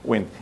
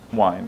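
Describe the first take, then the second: First: The vowel is short, like in 'win'. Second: The vowel is long, like in 'wine'. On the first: This is how it is said today. "now we don't say wine, so we say wind" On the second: This is how it was said centuries ago. "five hundred years ago it was pronounced wine"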